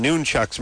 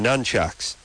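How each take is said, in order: First: "nunchucks" with a long oo, NOON-chucks; old noon pronunciation. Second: "nunchucks" with a short u, NUN-chucks; later nun pronunciation. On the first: Host defending his lifelong version, "nunchucks" as NOON-chucks. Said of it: "I called them nunchucks my entire life". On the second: Host giving the version he later learned, "nunchucks" as NUN-chucks. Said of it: "later on they become nunchucks". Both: Shown as a demonstration.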